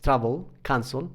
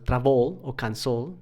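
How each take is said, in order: First: Travel and cancel stressed on the first syllable; TRAvel, CANcel, accent up front. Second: Travel and cancel wrongly stressed on the last syllable; traVEL, canCEL, accent on the second vowel; misplaced final stress. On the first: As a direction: hit TRA in travel, CAN in cancel. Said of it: "el acento está al principio". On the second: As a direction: lean on the end of travel, cancel. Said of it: "no va en la vocal". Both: Shown as a demonstration.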